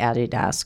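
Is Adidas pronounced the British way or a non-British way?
British. It is pronounced the British way. The speaker calls it right. "that's how they say it in Britain"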